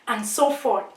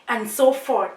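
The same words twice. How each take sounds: No difference in how they are said.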